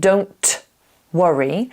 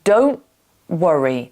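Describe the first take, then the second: First: The T in 'don't' is fully released. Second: The T in 'don't' is held, not released. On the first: "I'm not saying don't worry" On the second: "I'm saying don't worry"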